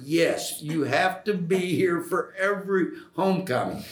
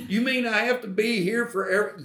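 First: Higher-pitched, insistent answer; playfully firm retold reply; retold emphatic insistence. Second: Much higher, quick, mock-incredulous voice; imitating someone questioning the demand; retold incredulous question. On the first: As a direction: insist on it, voice lifted. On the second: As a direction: echo it back in high-pitched disbelief. Acting out the questioning reply.

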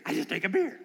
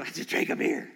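First: Amazed thought. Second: Inner thought. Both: Retold or imitated. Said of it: "remember thinking".

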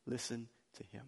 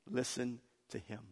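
First: "Listen to him" repeated much softer; soft echo. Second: Said in the usual way. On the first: Shown as a demonstration. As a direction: let "Listen to him" fall to a hushed echo.

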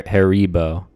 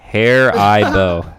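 First: Haribo said slowly as HAIR-ee-bo; alternative pronunciation. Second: Haribo drawn out slowly as HAIR-eye-bo; commenters' pronunciation. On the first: Shown as a demonstration. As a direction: say Haribo with "ee" in the middle, in place of "eye". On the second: Retold or imitated. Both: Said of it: "that's not how you say it".

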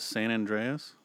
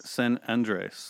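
First: San Andreas said like the fault, an-DRAY-as; wrong pronunciation. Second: San Andres with Spanish an-DRES; correct pronunciation. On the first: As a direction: say San Andreas the common English way. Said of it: "and it's not that". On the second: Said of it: "it's not that". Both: Shown as a demonstration.

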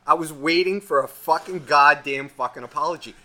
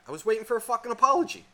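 First: Louder, hammering out "fucking goddamn fucking apology"; emphatic angry repeat. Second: Quick, higher-pitched "apology"; indignant first statement. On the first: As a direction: punch each "fucking" and "goddamn". Repeats demand with added swearing. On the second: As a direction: rattle off "I was waiting for a fucking apology" high and fast. Escalating demand for an apology. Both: Retold or imitated.

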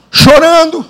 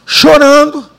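The two takes are said the same way.

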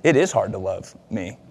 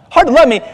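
First: A humbled husband conceding his wife's point; quiet realization. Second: High and loud, wounded and offended; a husband echoing his wife, indignant; indignant disbelief. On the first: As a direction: lower and softer, sobered. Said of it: "oh man, this is all about me". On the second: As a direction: throw "Hard to love me?" back, much higher and louder, stunned. Indignant echo of wife's words. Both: Retold or imitated.

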